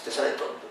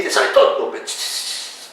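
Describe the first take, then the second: First: Te sale tonto barely whispered, much softer; repeating the aside to students, almost inaudible; fainter whisper. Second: Breathy whisper of the words te sale tonto; confiding to students in a whisper; whispered aside. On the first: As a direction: let te sale tonto fade to a hush. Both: Real, not acted.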